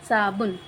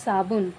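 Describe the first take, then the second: No difference in how they are said.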